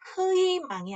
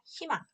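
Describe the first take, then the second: First: The first vowel glides as 'ui'. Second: The first vowel is a plain 'i'. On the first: The speaker calls it wrong. "반드시 희망이 아니라" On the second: The speaker calls it right. "아니라 희망"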